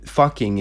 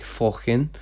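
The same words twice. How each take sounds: First: Said in the usual way. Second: "fucking" said with an O, as "fockin"; "fucking" with rounded first vowel and dropped G; Icelandic swear word. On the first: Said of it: "fucking is, like". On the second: Shown as a demonstration. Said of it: "I use Icelandic in Sub-Solom".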